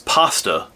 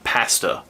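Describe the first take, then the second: First: The first vowel is a long A. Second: The first vowel is a short A. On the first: This is the speaker's usual way of saying it. "how we say it, the long A" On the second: This is not the speaker's usual way of saying it. "not pasta"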